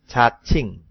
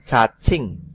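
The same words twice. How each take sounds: No difference in how they are said.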